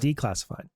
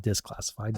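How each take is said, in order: First: The word begins with a 'dee' sound. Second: The word begins with a 'dis' sound. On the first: The speaker calls it right. "declassified. I got to get it right" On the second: The speaker calls it wrong. "not disclassified"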